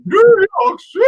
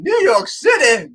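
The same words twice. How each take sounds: First: Very high, loud, cracking into laughter; repeating the ad line, shrieking and laughing; laughing shout. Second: Salsa ad shout. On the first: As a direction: scream it as the joke breaks you up. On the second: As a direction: drag it out, outraged. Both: Retold or imitated. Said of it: "that salsa commercial".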